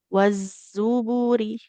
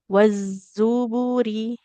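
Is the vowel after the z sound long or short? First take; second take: short; short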